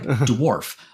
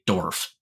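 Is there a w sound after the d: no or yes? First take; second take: yes; no. First: The word is said with a w sound. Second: The word is said without a w sound. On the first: The speaker calls it right. "I can say it like dwarf, but I need to actually think about the word" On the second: The speaker calls it wrong. "I would just say Dorf, D O R F"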